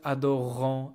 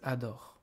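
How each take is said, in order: First: The final ending is sounded as a nasal vowel. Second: The final ending is silent, ending on r. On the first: The speaker calls it wrong. "This is not adorant" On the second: The speaker calls it right. "This is adore. ... E N T is not pronounced"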